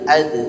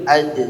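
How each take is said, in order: No difference in how they are said.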